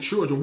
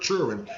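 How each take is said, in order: First: It is said in a standard pronunciation. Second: It is said in a Southern pronunciation.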